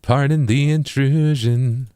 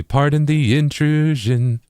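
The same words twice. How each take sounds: First: Slow, weight landing on "intrusion"; stress on INTRUSION. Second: Slow, odd weight on "the"; stress on THE. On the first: Tutor showing where emphasis falls, stress on intrusion. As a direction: lean into "intrusion,". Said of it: "get the emphasis on". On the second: Tutor testing a rhythmic choice, stress on the. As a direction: push the word "the". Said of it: "A good one here, though, might be". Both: Shown as a demonstration.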